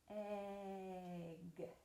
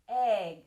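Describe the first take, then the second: First: The word is said slowly and drawn out. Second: The word is said at a normal pace.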